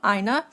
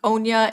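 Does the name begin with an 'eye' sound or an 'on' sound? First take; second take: eye; on. First: The name begins with an 'eye' sound. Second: The name begins with an 'on' sound. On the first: The speaker calls it right. "they have said that it is I and then N E H is like the pronunciation" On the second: The speaker calls it wrong. "I had pronounced it, I think, Onya in my previous video"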